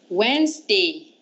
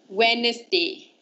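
First: The word is said with two syllables. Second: The word is said with three syllables. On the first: The speaker calls it right. "The correct way of saying this word is, there's only two syllables" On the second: The speaker calls it wrong. "You always say it as Wednesday, right?"

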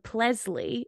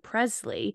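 First: The P is followed by an L sound. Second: The P is followed by an R sound. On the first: "his R's would sometimes come out as L's" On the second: "instead of"

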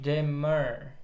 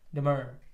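First: The word is said slowly and drawn out. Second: The word is said at normal speed.

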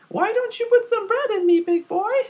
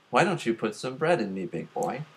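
First: It is said in a high, put-on voice. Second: It is said in the speaker's ordinary voice. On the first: The speaker calls it right. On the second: The speaker calls it wrong.

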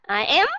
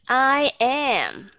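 First: The pitch on am rises. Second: The pitch on am stays level.

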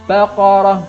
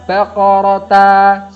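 First: The word ends with a silent h sound. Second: The word ends with a voiced ta syllable. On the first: The speaker calls it right. "tapi baqarah" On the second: The speaker calls it wrong. "bukan baqarata, salah"

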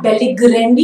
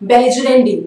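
First: The middle consonant is a hard g sound. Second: The middle consonant is a soft j sound. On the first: The speaker calls it wrong. "It's not बेलिग्रेंडी, it's not ग" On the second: The speaker calls it right. "It's ज"

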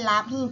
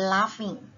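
First: The middle consonant is an h sound. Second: The middle consonant is an f sound. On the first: The speaker calls it wrong. "ไม่ใช่ laughing เป็นหอนกฮูก" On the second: The speaker calls it right. "เป็นเหมือนคำเป็น for fun"

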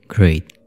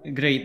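First: It is said in a put-on character voice. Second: It is said in the speaker's normal voice.

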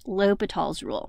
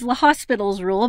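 First: The name is said without an S sound. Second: The name is said with an S sound. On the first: The speaker calls it right. "we pronounce it L'Hôpital's rule" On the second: The speaker calls it wrong. "it looks like it reads L'Hospital's rule"

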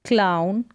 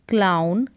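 No difference in how they are said.

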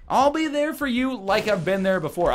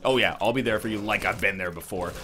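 First: It is said in a plain, sincere tone. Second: It is said in a mocking, sarcastic tone.

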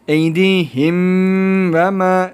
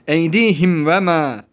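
First: There is a pause after the first word. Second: The words run on without any pause. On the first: The speaker calls it wrong. "Eydihim ve ma değil" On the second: The speaker calls it right. "durma yok"

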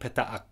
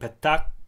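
First: A stop separates the two vowels. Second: The two vowels merge into one short vowel. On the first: "the two vowels are pronounced with a raka in between them" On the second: "the two vowels are pronounced as a short vowel"

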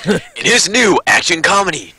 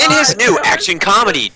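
First: It is read in a dramatic movie trailer voice. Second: It is read in an ordinary speaking voice.

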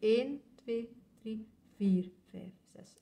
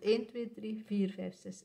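First: The count is slow, with a slight accent on four. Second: The count is fast, grouped into two beats. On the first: "als het traag gaat, tellen we tot 6 en leggen we een klein accent op 4" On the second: "Als dat dan sneller gaat"

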